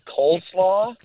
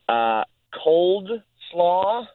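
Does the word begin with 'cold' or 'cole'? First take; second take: cole; cold. First: The first part sounds like 'cole', without d. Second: The first part sounds like 'cold', with a d. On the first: The speaker calls it right. "instead of coleslaw" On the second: The speaker calls it wrong. "she kept saying cold slaw"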